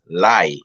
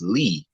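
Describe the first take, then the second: First: The vowel sounds like the word 'eye'. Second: The vowel sounds like the word 'see'. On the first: The speaker calls it wrong. "somebody was pronouncing it as lie, L I" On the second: The speaker calls it right. "no, it's Lee"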